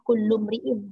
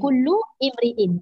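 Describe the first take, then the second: First: The words run together, dropping the initial 'i'. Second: The words are separate, with an initial 'i' sound. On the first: The words are read as they flow in recitation. "Tapi bila dia baca, dia bersambung lah" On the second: Each word is read on its own. "Itu awal kalimah. Kullu satu kalimah. Imri'in satu kalimah"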